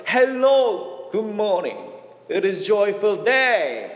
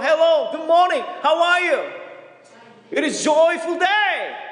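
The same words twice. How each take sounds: First: Drawn-out greeting through a big smile; broadly smiling greeting. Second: Broken English greeting. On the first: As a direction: imitate a beaming, slow hello in simple English. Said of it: "활짝 웃으면서". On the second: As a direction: call it out in halting Korean-accented English. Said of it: "안 되는 영어로". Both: Retold or imitated.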